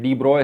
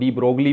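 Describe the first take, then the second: First: The surname sounds like 'broy', with no g. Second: The surname sounds like 'brog-lee', with a g. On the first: The speaker calls it right. "डी ब्रॉय है" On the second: The speaker calls it wrong. "गलत pronounce करते हैं"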